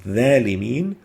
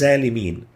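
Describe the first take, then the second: First: The first consonant is a plain dh sound. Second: The first consonant is a plain z sound. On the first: "the the could be exchanged with a thal" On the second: "or with a zain sounding like"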